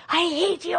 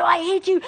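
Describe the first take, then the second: First: Put-on high, childish yell of hate; child's tantrum. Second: Put-on high, louder childish shout; the kid pushes harder, louder; louder child's tantrum. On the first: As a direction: play a furious kid snapping at mom. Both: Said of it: "That kid goes off".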